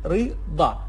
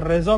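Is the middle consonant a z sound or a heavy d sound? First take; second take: heavy d; z. First: The middle consonant is a strong, heavy d sound. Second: The middle consonant is a plain z sound. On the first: "توی عربی عراقی گفتیم رضا" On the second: "رضا میخونیم توی فارسی"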